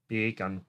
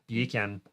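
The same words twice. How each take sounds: First: "Beer can" as "bay-kun", softer; sounding like bacon. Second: "Beer can" as "bee-can", lightly Jamaican; Jamaican accent. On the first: Testing the trick, "Beer can" said like "bacon". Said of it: "beer can sounds like bacon". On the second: Testing the trick, lightly Jamaican "Beer can". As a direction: try "Beer can" r-less, Jamaican-style. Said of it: "beer can with a Jamaican accent". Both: Shown as a demonstration.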